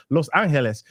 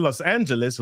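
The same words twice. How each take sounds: First: Spanish accent. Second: Said in the usual way. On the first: Shown as a demonstration. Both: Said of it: "I'm trying to get my Spanish accent on".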